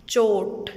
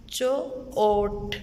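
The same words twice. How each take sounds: First: Said in the usual way. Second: चो-ओट with the ओ stretched very long and slow; drawn-out vowel. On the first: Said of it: "चो-ओट". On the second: Shown as a demonstration. Teacher to prep class, stretching the ओ in चो-ओट. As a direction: pull the ओ in चो-ओट out slowly. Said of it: "चोट में हम वाव की आवाज़ कौन सी".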